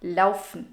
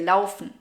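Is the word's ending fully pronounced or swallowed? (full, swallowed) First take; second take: swallowed; swallowed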